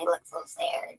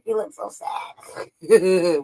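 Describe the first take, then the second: First: Breathy mock-sad whisper; hushed pity. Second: Very slow whispered pity; slow theatrical whisper; drawn-out whisper. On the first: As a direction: whisper it like a pitying aside. Mocking whisper at sad face. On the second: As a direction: stretch every word out in a whisper. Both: Real, not acted.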